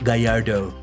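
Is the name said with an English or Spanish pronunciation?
English. The name is said with English sounds. The speaker calls it wrong. "pronouncing it English like"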